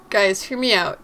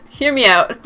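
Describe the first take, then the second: First: Said in the usual way. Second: Hear me out said louder through a laugh. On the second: Shown as a demonstration. Player asking the chat to hear her out, laughing.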